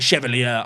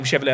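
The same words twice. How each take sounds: First: "Chevalier" said the French way, shuh-val-YAY, stress on the end; French pronunciation. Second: "Chevalier" said the English way, SHEV-a-leer; plain anglicised "Chevalier", flat English vowels; usual English say. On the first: Streamer correcting the player's name, French way. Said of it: "Sounds a bit more French". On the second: Streamer showing how he has been saying the player's name, anglicised. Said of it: "I've been saying Chevalier's name". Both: Shown as a demonstration.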